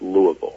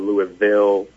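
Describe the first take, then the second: First: The syllables are run together with little mouth movement. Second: Each syllable is said out fully. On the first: The speaker calls it right. "You just kind of let it flow, and it's Louisville" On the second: The speaker calls it wrong. "It's not Louisville"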